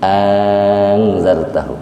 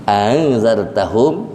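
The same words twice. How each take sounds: First: Long drawn first "a" in "angzartahum", falling close; tashil with madd. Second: Glided opening of "Angzartahum", ending on a rise; short first vowel sliding into "Angzartahum", tune left rising; tashil without madd. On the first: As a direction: hold the opening of "angzartahum", then glide on. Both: Shown as a demonstration. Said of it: "yang musahalah ada dua".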